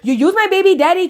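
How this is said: It is said in an imitated put-on voice.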